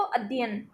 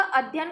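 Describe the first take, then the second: First: "अध्ययन" shortened to "अद्यन"; slurred, syllable dropped. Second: Said in the usual way. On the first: Shown as a demonstration. Teacher demonstrates slurring, "अध्ययन" with a syllable lost. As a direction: swallow the middle syllable of "अध्ययन". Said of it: "किसी एक अक्षर को उच्चारित नहीं करता है". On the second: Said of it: "किसी एक अक्षर को उच्चारित नहीं करता".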